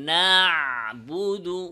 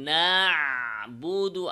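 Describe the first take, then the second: No difference in how they are said.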